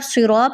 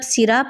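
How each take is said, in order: First: The first s sound is heavy and thick. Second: The first s sound is light and thin. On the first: The speaker calls it right. "तो ठीक है" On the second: The speaker calls it wrong. "आप यहाँ पे सीन की आवाज़ निकाल रहे हैं"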